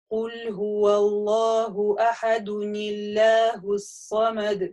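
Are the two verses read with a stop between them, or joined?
joined. The verses run together with no stop.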